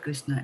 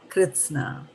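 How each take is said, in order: First: The middle consonant sounds like 'sh'. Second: The middle consonants sound like 'ts'. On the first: The speaker calls it wrong. "It is not Krishna" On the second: The speaker calls it right. "it is Kritsna"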